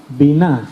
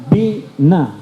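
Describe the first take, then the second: First: Said in the usual way. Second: Biná said bee-NAH with the stress on the last A, drawn out; Biná with a long stressed closing A; stress on final A. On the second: Shown as a demonstration. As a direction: lean on the final syllable of Biná, bi-NÁ. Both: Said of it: "acento en la A al final".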